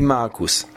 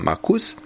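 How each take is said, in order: First: The stress is on the first syllable. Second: The stress is on the second syllable. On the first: The speaker calls it right. "C'est plutôt la première syllabe qui est accentuée" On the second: The speaker calls it wrong. "tu as tendance à accentuer. Sur la deuxième syllabe"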